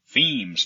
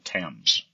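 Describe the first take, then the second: First: The word is said with a long 'ee' vowel. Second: The word is said with a short 'e' vowel.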